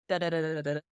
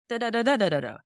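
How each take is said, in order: First: "Da, da, da" kept low and even; American melody in syllables. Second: "Da, da, da" higher and louder, arching then falling; British melody in syllables. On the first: Musician showing the melody without words, American melody in syllables. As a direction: sketch the American question tune on "da", level and understated. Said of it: "American would be". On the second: Musician showing the melody without words, British melody in syllables. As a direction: sketch the British question tune on "da", high then dropping. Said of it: "British would be more like".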